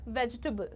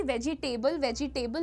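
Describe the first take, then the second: First: वेजिटेबल as VEJ-tuh-bul; three syllables. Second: वेजिटेबल as ve-ji-TAY-bul; four syllables, wrong take. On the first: Teacher giving the correct form, short VEJ-tuh-bul. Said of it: "The pronunciation is vegetable". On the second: Teacher showing what not to say, वेजिटेबल in four syllables. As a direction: say वेजिटेबल with a full table ending. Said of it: "ना कहिए". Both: Shown as a demonstration.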